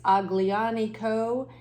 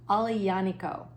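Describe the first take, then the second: First: It is said the way the spelling looks. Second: It is said differently from how it looks. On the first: The speaker calls it wrong. "It looks like it's Aglianico, but it's actually pronounced differently" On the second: The speaker calls it right. "Aglianico is how it is pronounced"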